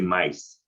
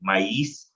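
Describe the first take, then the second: First: The 'i' does not carry the stress. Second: The 'i' carries the stress.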